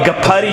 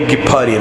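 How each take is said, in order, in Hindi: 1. पहला स्वर 'a' ध्वनि है। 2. पहला स्वर 'i' ध्वनि है। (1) "वन काशिर" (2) "असल प्रोनाउंसिएशन गिफारी"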